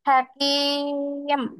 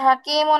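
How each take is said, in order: First: The word ends on a bare consonant. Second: The word ends with a final vowel sound. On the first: The speaker calls it right. "জজম হয়ে যায়" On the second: The speaker calls it wrong. "হাকিমও না পড়ে"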